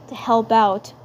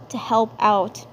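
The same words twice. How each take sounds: The two takes are said the same way.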